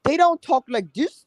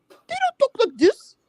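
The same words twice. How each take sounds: First: Higher, put-on proper voice mocking newcomers; mock the way outsiders talk, pitched up. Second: Much higher, hammed-up squeaky mock voice; exaggerated mock voice. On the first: Host mocks how newcomers talk, higher put-on voice. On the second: Host mocks newcomers' speech in exaggerated falsetto. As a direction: push the mockery way up into a falsetto. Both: Shown as a demonstration. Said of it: "they have dropped they mamas".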